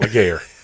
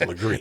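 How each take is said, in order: First: The name ends with a 'gair' sound. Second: The name ends with a 'gree' sound. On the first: The speaker calls it wrong. "it's not Laguerre" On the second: The speaker calls it right. "it's Legree"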